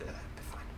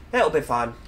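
First: Whispered "it'll be fine" under the breath; a hushed aside, barely voiced. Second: Said in the usual way. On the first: Real, not acted.

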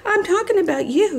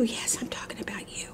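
First: High-pitched pet-scolding voice; playful telling-off. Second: Soft, near-whispered pet talk; hushed teasing. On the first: Turns to tell off her dog. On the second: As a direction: drop to a murmur for the puppy. Repeats it softly to the dog. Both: Real, not acted.

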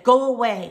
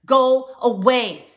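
First: Loud, sharp order; loud retold command. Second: Slow, very loud and high, dragged out; really loud. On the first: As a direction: chase her off with a firm yell. Telling the stranger to leave. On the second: Retold or imitated. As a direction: roar it to drive her away. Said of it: "I said really, really loud".

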